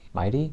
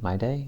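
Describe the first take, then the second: First: The second syllable sounds like 'tee'. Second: The second syllable sounds like 'day'. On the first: This is how others have been saying it. "I don't think they've been pronouncing it that way" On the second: This is how the name looks when written. "It looks like My Day"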